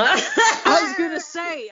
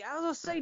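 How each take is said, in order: First: Laughing. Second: Said in the usual way. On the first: Real, not acted. Laughing in disbelief.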